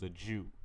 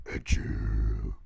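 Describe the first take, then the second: First: Said in the usual way. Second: Very low, loud villain voice; sinister villain echo. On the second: Acted. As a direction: drop way down like a menacing villain. Villainous echo of the narrated words.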